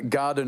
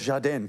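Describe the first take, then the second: First: The word is said the standard way. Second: The word is said the local Geelong way.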